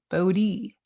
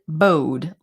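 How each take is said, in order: First: The name is said as two syllables. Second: The name is said as one syllable. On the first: "everyone was calling him Bodie" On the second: "I always pronounced it bode, like the word bode"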